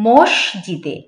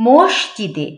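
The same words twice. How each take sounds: Both takes have the same delivery.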